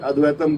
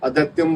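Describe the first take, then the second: First: The t is followed directly by the vowel. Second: A y glide follows the t sound. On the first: The speaker calls it right. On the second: The speaker calls it wrong.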